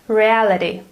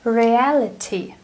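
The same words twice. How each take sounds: First: The t sounds like a soft d. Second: The t is a crisp t. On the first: "compare American to British accent" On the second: "British English sounds completely different"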